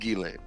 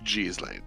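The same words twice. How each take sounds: First: Said the way common in France and Belgium. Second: Said the way common in southern France, Canada. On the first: "which is more common in France and Belgium" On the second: "which is more common in the south of France and in Canada"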